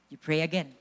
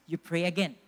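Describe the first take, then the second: No difference in how they are said.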